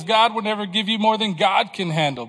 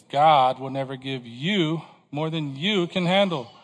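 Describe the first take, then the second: First: The second "God" stressed in place of "you". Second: Slow line with "you" drawn out and punched; stress on YOU. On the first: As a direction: brisker line, emphasis landing on "God can handle". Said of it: "what a better say-, saying might be". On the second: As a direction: lean slowly on both "you"s. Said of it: "The emphasis is on you". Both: Shown as a demonstration.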